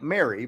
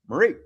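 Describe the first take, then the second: First: It is said like the English name Mary. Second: It is said with a French pronunciation. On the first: The speaker calls it wrong. "it looks like Mary" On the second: The speaker calls it right. "but it is Marie"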